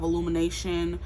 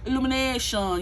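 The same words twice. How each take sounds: First: It is said in an ordinary speaking voice. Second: It is said in a silly cartoon character voice.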